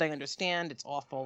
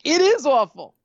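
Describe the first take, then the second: First: Low, soft retold agreement; subdued sympathy. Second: Loud, raised retold retort; outraged agreement. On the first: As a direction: drop it right down, resigned. Agent's sympathy set against her reply. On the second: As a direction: throw it back with indignant force. Her outraged echo of the agent.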